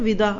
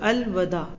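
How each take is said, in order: First: The first vowel is an 'i' sound. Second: The first vowel is an 'a' sound. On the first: The speaker calls it wrong. "ہم تو کہتے ہیں نا ودا" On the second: The speaker calls it right. "واو پہ دیکھ لیں آپ زبر ہے"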